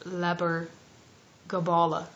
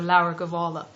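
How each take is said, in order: First: The b and g sounds are pronounced hard. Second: The b and g sounds are softened. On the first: This is the Old Irish pronunciation. "in the Old Irish" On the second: This is the modern Irish pronunciation. "in modern Irish, um, you you don't really pronounce them; they're soft"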